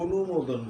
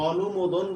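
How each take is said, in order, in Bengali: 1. প্রথম স্বরধ্বনিটি একটি গোলাকার 'o' ধ্বনি। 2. প্রথম স্বরধ্বনিটি একটি খোলা 'a' ধ্বনি। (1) "আমরা কিন্তু অনুমোদন বলি, এখানে অটা ও হয়ে যায়" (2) "আমরা কিন্তু কখনোই অনুমোদন বলি না"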